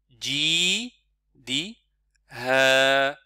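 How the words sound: The syllables are said with pauses between them. "je découpe pour avoir le temps de bien prononcer"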